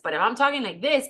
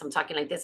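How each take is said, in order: First: It sounds smiling and a bit excited. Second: It sounds flat, without a smile.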